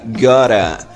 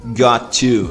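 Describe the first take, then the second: First: The two words blend into one short word. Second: The two words are said fully and separately.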